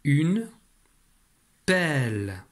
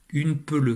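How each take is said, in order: First: Pelle with an open è sound, drawn out; careful decoding demo; right reading. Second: Peleu with two flat eu sounds, wrongly decoded; mock wrong decoding; wrong reading. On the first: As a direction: stretch out une pelle, pointing the è. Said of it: "on va appliquer la règle". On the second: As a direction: read peleu as if the E were plain. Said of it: "Ça donne". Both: Shown as a demonstration.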